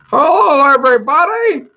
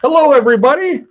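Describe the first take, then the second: First: It is said imitating Barney's voice. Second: It is said in his own voice.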